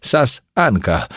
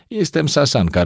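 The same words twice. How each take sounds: First: Sasanka drawn out slowly, each syllable spelt out; slow, emphatic Sasanka repeated for the clerk; stressed name. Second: Said in the usual way. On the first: A narrator's reading. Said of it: "Jestem Sasanka, rozumie pani?". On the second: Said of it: "introducing herself by name".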